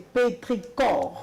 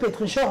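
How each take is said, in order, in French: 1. La consonne avant la dernière syllabe sonne comme 'k'. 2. La consonne avant la dernière syllabe sonne comme 'sh'. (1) "la prononciation c'est pétricor" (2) "et même pétrichor en vrai"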